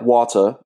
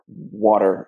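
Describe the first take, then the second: First: It is said with a Jamaican accent. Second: It is said with an American accent.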